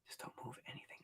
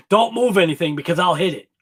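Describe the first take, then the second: First: Hushed unvoiced whisper. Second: Said in the usual way. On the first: Real, not acted. Quietly warning a viewer not to move anything, whispered. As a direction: breathe it out under your breath.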